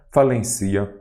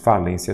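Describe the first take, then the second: First: "falencia" stressed on the i, fa-len-CI-a; stress moved to CI. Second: Said in the usual way. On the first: Shown as a demonstration. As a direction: wrongly put the weight on "ci" in "falencia". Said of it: "Falência tem acento". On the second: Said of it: "falencia não".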